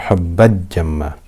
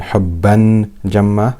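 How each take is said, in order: First: The n is merged completely into the j. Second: The n is pronounced clearly before the j. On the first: "I'm not merging the tanween into the jim" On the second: "I'm not clearly pronouncing the tanween. I'm not saying"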